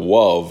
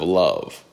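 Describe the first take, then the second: First: The word begins with a W sound. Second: The word begins with an L sound. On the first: It is a cute cartoon-style way of saying it. "Elmer Fudd isms" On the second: It is the normal way of saying it. "instead of"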